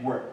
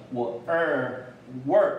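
First: "word" short and quick, vowel reduced; "word" with a brief unstressed er; quick sentence form. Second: "word" with a full, held er vowel; full citation form. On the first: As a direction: toss off "word" as in running speech. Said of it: "句子念快的时候". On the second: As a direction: sound out 我二, then blend into "word". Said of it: "但是你在句子念快的时候". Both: Shown as a demonstration.

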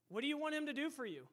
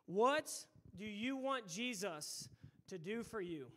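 First: Whole question in one fast, unbroken run; quick repeated question. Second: "What" punched out, then a pause before the rest; deliberate question. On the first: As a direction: ask it briskly without pauses, rising through the middle. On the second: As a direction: pose it in weighty pieces, pausing after "What". Key question posed, then repeated quicker. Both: Real, not acted.

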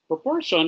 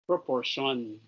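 First: Proportion said again, higher and falling firmly; stressed repeat. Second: Said in the usual way. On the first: Shown as a demonstration. Teacher repeats the new term to the class, stressed. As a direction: repeat Proportion with emphasis to drive it home.

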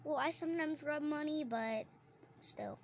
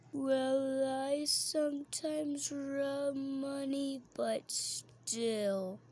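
First: Said in the usual way. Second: Mock put-on voice. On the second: Girl redoes her own line slowly in a silly voice.

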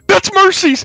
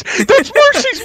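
First: Excited. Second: Mercy's dragged out high and slow; stretched excited shout. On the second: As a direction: draw out Mercy's, thrilled and much higher. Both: Real, not acted. Recognizes famous streamer, thrilled.

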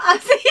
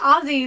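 First: "Aussie" said with a hissed s, like AW-see. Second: "Aussie" said with a buzzing z, like Ozzie. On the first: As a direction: keep the middle of "Aussie" an unvoiced s. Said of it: "not Aussie". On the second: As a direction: voice the middle of "Aussie" as a z. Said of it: "You should say Aussie, not Aussie". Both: Shown as a demonstration.

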